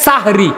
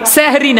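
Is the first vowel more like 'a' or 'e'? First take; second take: a; e. First: The first vowel sounds like 'a'. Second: The first vowel sounds like 'e'. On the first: The speaker calls it right. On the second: The speaker calls it wrong. "সেহরি না"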